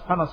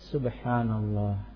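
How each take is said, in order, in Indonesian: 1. Diucapkan cepat dan tidak jelas. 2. Diucapkan pelan dan jelas. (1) "karena cepat-cepat gitu" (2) "harus jelas"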